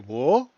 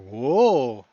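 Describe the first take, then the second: First: The pitch rises across the syllable. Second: The pitch dips down and then rises. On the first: "They got a rising tone" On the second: "roller coaster"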